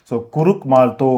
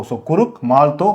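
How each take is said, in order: The two takes are said the same way.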